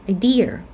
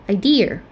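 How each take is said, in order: The two takes are said the same way.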